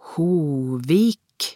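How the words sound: The name is pronounced the Norwegian way.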